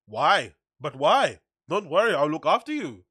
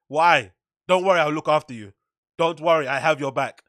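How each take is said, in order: First: Put-on botched German accent that drifts towards Indian; mock German accent, lilting and off-target; German accent attempt sounding Indian. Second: Matter-of-fact mock German, no niceties; blunt German accent, louder and firm; cold German accent. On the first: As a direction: try a German accent and slide into Indian lilt. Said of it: "that sounds kinda Indian". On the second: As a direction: do a curt, businesslike German accent. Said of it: "matter of fact, cold".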